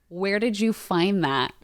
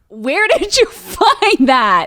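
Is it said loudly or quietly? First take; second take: quietly; loudly. First: It is said at a quieter volume. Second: It is said at a louder volume.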